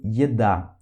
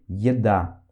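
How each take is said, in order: First: Yeda with an initial ye glide, lower; Russian yeda. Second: Yeda repeated lower, ye glide clear; Russian yeda repeated. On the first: Teacher models Yeda for learners. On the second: Teacher repeats Yeda for students. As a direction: echo Yeda for learners. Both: Shown as a demonstration. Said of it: "a palavra em russo".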